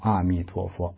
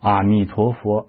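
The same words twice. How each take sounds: First: The pitch stays level through the phrase. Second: The pitch rises on the phrase.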